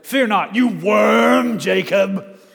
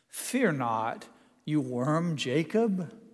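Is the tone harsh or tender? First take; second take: harsh; tender. First: It is said harshly, with contempt. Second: It is said warmly, with a chuckle. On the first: The words are meant as an insult. The speaker calls it wrong. "I don't think he's saying that with" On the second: The words are meant kindly and playfully. The speaker calls it right. "I can't believe that he doesn't say this with a chuckle"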